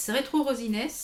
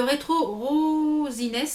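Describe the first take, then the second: First: Said in the usual way. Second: "Rosines" with a long, stretched "Ro"; drawn-out first syllable. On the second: Real, not acted. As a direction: linger on the first vowel of "Rosines". Shade name stretched, then repeated normally. (« Rosines » avec le « Ro » très étiré)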